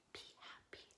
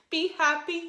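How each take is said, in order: First: Soft whispered echo of the line. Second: Sung line. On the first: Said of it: "like an echo". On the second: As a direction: sing it for them to echo. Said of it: "you'll repeat it back to me". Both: Shown as a demonstration.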